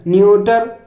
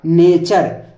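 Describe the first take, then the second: First: It is said like 'nyooter', ending with a t sound. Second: It is said like 'naycher', ending with a ch sound. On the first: The speaker calls it wrong. "अब इसको कोई पढ़ेगा न्यूटर" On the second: The speaker calls it right. "टी यू आर ई को चर बोलते हैं तो ये होगा नेचर"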